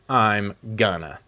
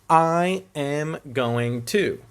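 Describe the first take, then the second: First: The phrase is contracted and reduced to gonna. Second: The phrase is said in full, unreduced. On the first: The speaker calls it wrong. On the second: The speaker calls it right.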